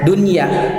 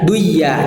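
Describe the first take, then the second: First: The n sound is clearly pronounced before ya. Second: The n sound is merged into the ya. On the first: The speaker calls it right. "jadi kita bacanya dunya duya jadinya" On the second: The speaker calls it wrong. "apabila diidghamkan anun nun fil ya'i"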